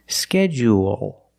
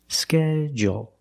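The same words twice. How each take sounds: First: It has an extra vowel sound in the middle. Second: It is shortened without the extra vowel. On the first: "There's an extra vowel there" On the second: "make it short and say schedule"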